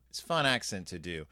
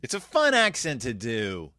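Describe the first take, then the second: First: Said in the usual way. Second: Playful put-on Irish lilt; Irish accent. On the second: Shown as a demonstration. Podcaster excusing the impression, Irish accent. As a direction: slip into an Irish accent for fun. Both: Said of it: "my Irish accent".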